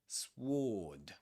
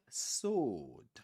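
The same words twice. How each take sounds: First: A W sound is pronounced after the S. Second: The W is silent after the S. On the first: The speaker calls it wrong. "We don't say" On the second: The speaker calls it right. "the W is silent. We don't pronounce it. We say sword"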